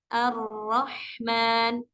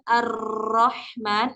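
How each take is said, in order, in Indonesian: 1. Huruf r memiliki getaran yang ringan dan lembut. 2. Huruf r digetarkan dengan tekanan yang berat. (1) "getarannya lembut saja tadi" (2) "bukan terlalu ditekan"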